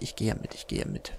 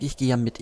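First: Trailing off resigned whisper; fading to a whisper. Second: Said in the usual way. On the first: Real, not acted. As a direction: repeat it softer and softer into a whisper. (leiser werdend bis zum Flüstern)

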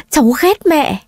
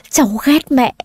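First: "cháu ghét mẹ" repeated higher, breaking; sobbing outburst. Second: Put-on sobbing girl. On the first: Acted. Granddaughter sobbing to grandmother, voice climbing higher. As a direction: let the second "ghét" climb higher in sobs. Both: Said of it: "nấc lên từng tiếng".

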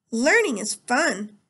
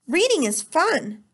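First: Slow, drawn-out cheer; slow sing-song. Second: Slow, higher and louder hearty cheer; hearty teacher voice. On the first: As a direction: stretch it like a children's show. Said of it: "said the teacher". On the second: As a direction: pump false enthusiasm into every word. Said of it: "teacher said in a hearty voice". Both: A narrator's reading.

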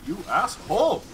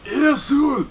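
First: Said in the usual way. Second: Loud, high mock Japanese accent; over-the-top fake Japanese accent outburst; very bad Japanese accent. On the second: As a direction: yell it in a badly faked Japanese accent. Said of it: "a very bad Japanese accent".

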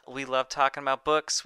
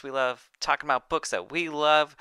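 First: Raised, loud host read with a rising end on books; loud cheery slogan, books rising. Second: Love punched high and loud, hammed-up; stress on love. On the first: Acted. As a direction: pitch the slogan upbeat. First take of show slogan. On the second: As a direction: lean hard on the final love. Repeats slogan, punches love.

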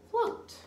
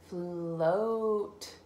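First: "Float" said quickly and much higher; bright quick read. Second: "Float" stretched with a long "Fl"; slow sounding out. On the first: Teacher reading "Float" quickly to the child. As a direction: pop out "Float". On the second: Teacher sounding out "Float" for the child. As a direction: draw "Float" out. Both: Shown as a demonstration. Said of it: "another blend at the beginning".

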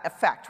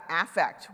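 First: "affect" with a weak first syllable, stress on FECT, like uh-FECT; wrong affect. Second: "affect" stressed on the first syllable, AF-fect with a clear "a" as in "cat"; right affect. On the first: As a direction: say "affect" as uh-FECT, the everyday verb. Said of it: "We're talking about affect". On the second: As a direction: say "affect" as AF-fect, the psychology noun. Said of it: "we're not talking about affect". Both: Shown as a demonstration.

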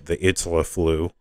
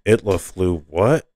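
First: Said in the usual way. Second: Mildly incredulous question; puzzled repeat ending on a questioning lift; disbelief. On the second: A narrator's reading. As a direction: echo it, then a rising "what?". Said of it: "Priscilla said in disbelief".

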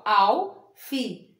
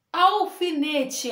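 First: "Alfinete" slowly in four separate beats; syllable by syllable. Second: Said in the usual way. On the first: Shown as a demonstration. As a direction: pause between al, fi, ne, te in "Alfinete". ("Alfinete" devagar, sílaba por sílaba) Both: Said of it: "Quatro sílabas".

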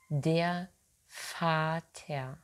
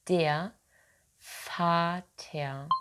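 No difference in how they are said.

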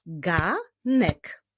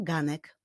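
First: GANEK split into two beats, GA, then NEK; teacher's slow GA... NEK; syllable by syllable. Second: Said in the usual way. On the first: Shown as a demonstration. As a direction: clap out "ganek" with a gap between syllables. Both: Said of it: "wyklaskiwali sylaby w poszczególnych wyrazach".

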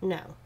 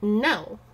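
First: Soft, limp, unsure no; wishy-washy no. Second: No said short and firm; mean it, no room to argue. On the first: Teaching husband dog discipline, a wishy-washy no. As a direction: let the no sag with no conviction. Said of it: "It can't sound wishy-washy". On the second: Teaching husband dog discipline, a firm no. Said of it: "You actually have to sound like you mean it". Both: Shown as a demonstration.

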